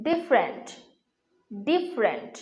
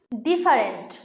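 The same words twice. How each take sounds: First: ডিফারেন্ট in two syllables, 'dif-rent'; corrected pronunciation. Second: ডিফারেন্ট in three syllables, 'di-fa-rent'; common mispronunciation. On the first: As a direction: drop the middle vowel of ডিফারেন্ট: 'difrent'. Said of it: "এর সঠিক উচ্চারণ হচ্ছে". (ডিফারেন্ট-এর শুদ্ধ উচ্চারণ, 'ডিফ-রেন্ট') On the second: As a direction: say ডিফারেন্ট with an 'a' after the f. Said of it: "শব্দটির উচ্চারণ কিন্তু ভুল". (ডিফারেন্ট-এর ভুল উচ্চারণ, 'ডি-ফা-রেন্ট') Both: Shown as a demonstration.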